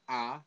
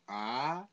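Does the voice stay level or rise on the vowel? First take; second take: level; rise. First: The vowel is said with a level pitch. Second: The vowel is said with a rising pitch. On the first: "it's like A" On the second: "So just raising your voice"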